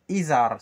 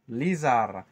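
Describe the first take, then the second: First: The word begins with a vowel, no L. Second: The word begins with an L sound. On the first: This form is used only in some regions. "dans certaines régions Izar sans L" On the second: This is the form used in most places. "majoritairement, c'est Lizar"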